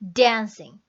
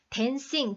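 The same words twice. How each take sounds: First: The first syllable is strong and the second is weak. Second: Both syllables are said with similar weight. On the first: The speaker calls it right. "갔다 오죠" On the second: The speaker calls it wrong. "dancing이 아니라"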